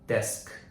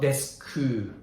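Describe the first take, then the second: First: The word ends sharply on the k sound. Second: The word ends with an extra u vowel. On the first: The speaker calls it right. "stopping with the consonant sound" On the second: The speaker calls it wrong. "Desku is wrong. U sound"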